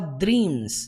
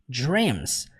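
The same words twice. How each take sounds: First: The dr sound is made forward, Portuguese-style. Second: The dr sound is made further back inside. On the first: The speaker calls it wrong. "você não fala dreams. Não, não é som de dra, dre, dri" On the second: The speaker calls it right. "é uma coisa mais lá pra dentro"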